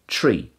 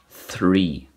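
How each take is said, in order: First: The word starts with a plain T sound. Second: The word starts with a TH sound. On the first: The speaker calls it right. "I just say it this way" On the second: The speaker calls it wrong. "that just sounds weird"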